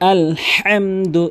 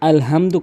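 First: The h is a deep, breathy throat sound. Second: The h is a light, plain h sound. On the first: The speaker calls it right. "এভাবে বারবার প্র্যাকটিস করুন" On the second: The speaker calls it wrong. "আলহামদু কখনোই বলবেন না, ছোট হাইনে উচ্চারণ করবেন না"

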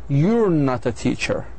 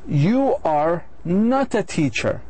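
First: You are is contracted into one syllable. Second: You are is said as two full words.

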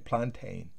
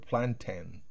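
First: The second syllable has a full 'ay' vowel. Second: The second syllable has a short, weak vowel. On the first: "Algunos dicen plantain. Se oye casi que la EI" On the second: "una E muy pequeña"

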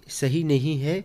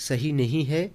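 The two takes are said the same way.

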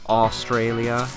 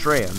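First: It is said fully, in a Canadian way. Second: It is clipped short, in an Australian way. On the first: "everybody and their mother over here in Canada pronounces it Australia, like Australia" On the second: "It's just Straya, man"

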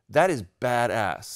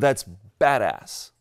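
First: The words are kept separate. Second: The words are run together as one.

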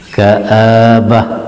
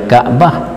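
First: The vowel after the first consonant is drawn out. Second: The vowel after the first consonant is clipped short.

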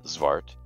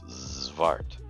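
First: The opening z sound is short and clipped. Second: The opening z sound is drawn out and buzzing. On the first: The speaker calls it wrong. "It's never XVART" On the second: The speaker calls it right. "it's XVART. You take your time"

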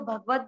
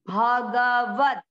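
First: The vowel after the first consonant is dropped. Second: The vowel after the first consonant is kept. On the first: The speaker calls it wrong. "कई बार हम इसको भगवत बोलते हैं" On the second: The speaker calls it right. "भ पूरा आना चाहिए, यानी भ में भी अ मिक्स आना चाहिए"

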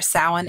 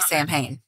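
First: It is pronounced unlike the way it looks written. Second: It is pronounced the way it looks written. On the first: The speaker calls it right. "typed Samhain phonetically throughout this whole thing so that I won't say it wrong" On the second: The speaker calls it wrong. "You want to say Samhain"

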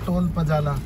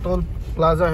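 First: The second word is said with its sounds swapped. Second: The second word is said with the 'pl' cluster. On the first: This is how a friend says the word. "ये आतिश भाई बोलता है ना toll पजाला" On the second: This is the standard form of the word. "वैसे toll प्लाजा है"

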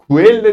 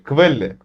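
First: The word begins with a 'ku' sound. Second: The word begins with a 'kv' sound. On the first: The speaker calls it wrong. "Quelle değil de" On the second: The speaker calls it right. "değil de quelle"

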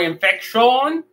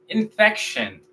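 First: It is pronounced with Spanish-like sounds. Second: It is pronounced with English sounds. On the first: The speaker calls it wrong. "vamos a decir infección o infection. No" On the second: The speaker calls it right. "vamos a decir infection"

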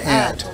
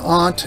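First: The word is said in an American accent. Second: The word is said in a British accent. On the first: "In America, it's an aunt" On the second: "in England, it's an aunt"

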